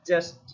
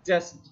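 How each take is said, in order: Both takes have the same delivery.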